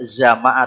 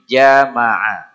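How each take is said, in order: First: The word begins with a z sound. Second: The word begins with a j sound. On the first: The speaker calls it wrong. "Tidak zamaah tapi jamaah" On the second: The speaker calls it right. "Tidak zamaah tapi jamaah"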